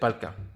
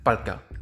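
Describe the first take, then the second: Both takes have the same delivery.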